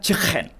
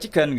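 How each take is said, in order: First: It is said in a throaty Liverpool accent. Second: It is said in a standard British accent.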